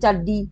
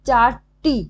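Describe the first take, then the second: First: The second syllable starts with a d sound. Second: The second syllable starts with a t sound. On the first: This is the changed everyday form. "চারডি হয়ে গেল" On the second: This is the original form of the word. "চারটি থেকে"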